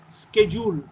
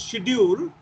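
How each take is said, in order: First: It begins with an sk sound. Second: It begins with an sh sound. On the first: "Americans pronounce it as schedule" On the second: "the word we pronounce schedule"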